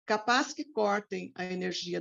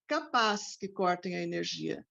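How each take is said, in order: First: The word capaz carries no prominent stress. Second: The word capaz carries strong prominent stress. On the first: It expresses that this is likely to happen. "without the uh, prominent stress on the expression capaz" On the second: It expresses strong doubt that this will happen. "we don't have"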